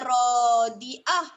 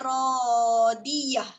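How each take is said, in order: First: The last syllable has no y sound before a. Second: The last syllable has a y sound before a. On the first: The speaker calls it wrong. "Bukan rodiah" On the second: The speaker calls it right. "Dia rodiyah"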